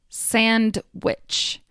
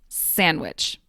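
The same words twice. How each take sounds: First: The D sound is clearly pronounced. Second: The D sound is dropped. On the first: "I enunciated each word" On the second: "The D in sandwich often disappears"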